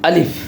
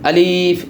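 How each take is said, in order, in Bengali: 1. স্বরধ্বনিটি ছোট, টেনে পড়া হয় না। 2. স্বরধ্বনিটি টেনে দীর্ঘ করে পড়া হয়। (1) "এভাবে পড়ব" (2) "এরকম টেনে পড়া যাবে না"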